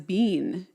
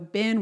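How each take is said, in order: First: The vowel is long, like in 'bean'. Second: The vowel is short, like in 'bin'. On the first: This is the old-fashioned way the family said it. "bean in our house" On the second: This is the usual way most people say it. "bin was bean in our house"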